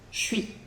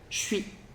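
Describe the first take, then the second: The two takes are said the same way.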